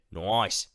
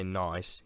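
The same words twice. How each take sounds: First: Broad Australian 'noice'; Australian vowel stretched toward 'oy' in 'nice'; Australian accent. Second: Said in the usual way. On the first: Retold or imitated. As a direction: imitate an Aussie saying 'nice' as 'noice'. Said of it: "I wasn't good at an Australian accent". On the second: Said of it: "I'm sure he didn't say".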